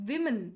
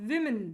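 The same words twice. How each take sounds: Both takes have the same delivery.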